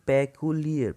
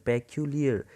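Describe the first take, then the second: The two takes are said the same way.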